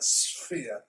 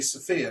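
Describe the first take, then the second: First: The s slides straight into the f. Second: A short vowel is inserted after the s. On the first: The speaker calls it right. "we just slide straight from the S into the P H" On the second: The speaker calls it wrong. "a kid learning to read might say Sophia"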